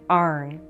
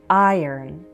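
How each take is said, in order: First: The word is said like 'arn', one syllable. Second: The word is said like 'iron', two syllables. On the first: This is the local regional way of saying it. "in Western Pennsylvania, people say this word as arn" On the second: This is the more standard way of saying it. "It's more standard to say iron"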